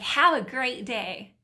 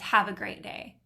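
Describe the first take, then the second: First: It sounds sincere and warm. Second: It sounds sarcastic and negative.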